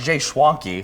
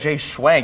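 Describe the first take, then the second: First: The surname ends with a final ee sound. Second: The surname ends without a final ee sound. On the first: The speaker calls it right. "It's Jay Schwanke" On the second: The speaker calls it wrong. "I said Jay Schwank"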